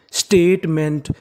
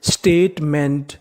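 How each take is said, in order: First: Said in the usual way. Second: statement drawn out slowly; slow teaching read. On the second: Shown as a demonstration. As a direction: sound out statement slowly for the class. (Statement धीरे-धीरे) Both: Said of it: "तो पूरी meaning क्या बन गई?".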